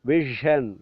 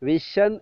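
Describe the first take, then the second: First: The middle consonant is a voiced zh sound. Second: The middle consonant is a plain sh sound. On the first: The speaker calls it right. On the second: The speaker calls it wrong.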